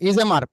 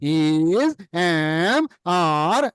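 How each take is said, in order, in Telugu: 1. పదాలు సాగదీయకుండా త్వరగా కలిపి చెప్పబడతాయి. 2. ప్రతి పదం నెమ్మదిగా, విడివిడిగా సాగదీయబడుతుంది. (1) "ఎలా చెప్పాలంటే" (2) "ఇది సాగదీయడం పిల్లలు, ఎల్కేజీ పిల్లలు"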